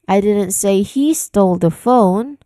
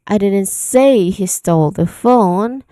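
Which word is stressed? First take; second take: he; say. First: The word he carries the main stress. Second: The word say carries the main stress. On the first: It may have been someone else who did it. "here I put stress on the word he" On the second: The speaker never actually said it. "you are referring to the act of saying"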